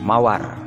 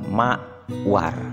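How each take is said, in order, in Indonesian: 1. Kata itu diucapkan utuh tanpa jeda. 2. Kata itu diucapkan dengan jeda di antara suku katanya. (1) "Contoh kata mawar" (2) "jadi dipotong atau dipenggal mawar"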